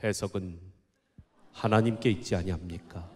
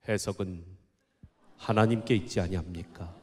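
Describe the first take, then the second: First: It is said in a bold, confident way. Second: The same.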